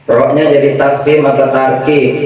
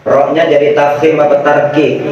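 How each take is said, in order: Both takes have the same delivery.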